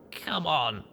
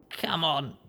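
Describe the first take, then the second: First: Pained groaning plea. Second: Weak hoarse rasp; raspy. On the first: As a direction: groan the words out in pain. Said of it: "I groaned". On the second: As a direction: rasp it out, barely any voice. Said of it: "I rasped". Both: Acted.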